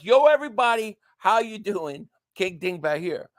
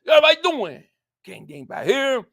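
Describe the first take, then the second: First: Spelled-out video intro. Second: High, loud, words run together, then dropping; really fast intro. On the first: Streamer explaining what the intro says, spelled-out greeting. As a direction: say each word of the catchphrase distinctly. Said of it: "So it's". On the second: Streamer showing how the intro really goes, really fast. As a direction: rattle off the catchphrase in one burst. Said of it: "But it's really, really fast". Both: Shown as a demonstration.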